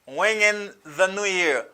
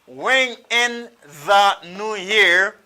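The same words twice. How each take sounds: First: The phrase is said fast, with the reduced. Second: The phrase is said slowly and fully.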